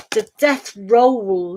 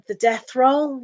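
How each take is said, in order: First: "The death roll" said slowly, with roll drawn out clearly; slow corrective "The death roll"; careful pronunciation. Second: Said in the usual way. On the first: Shown as a demonstration. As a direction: spell out "roll" slowly so it can't be heard as "row". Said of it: "not row".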